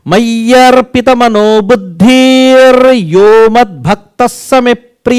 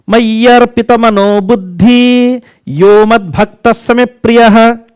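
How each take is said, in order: First: An r sound follows the word buddhi. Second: No r sound follows the word buddhi. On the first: The speaker calls it right. "You see the right pronunciation" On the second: The speaker calls it wrong. "I am uttering wrongly same thing"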